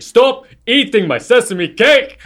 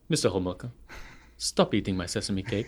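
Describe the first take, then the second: First: Much higher, louder, slow yell; yelled film quote, slower; mock yell. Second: Softly, calmly threatening; low quiet warning before the yell; understated quiet menace. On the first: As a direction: shout the line, dragging it out. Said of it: "he starts to yell". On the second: Retold or imitated. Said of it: "looks at him and says".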